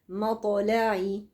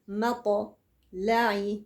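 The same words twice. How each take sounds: First: The bounced t runs straight into the next letter. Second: A break separates the bounced t from the next letter. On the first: The speaker calls it right. "متصلين على طول" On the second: The speaker calls it wrong. "ما اعملش فاصل في النطق ما بين القلقله والحرف اللي بعده"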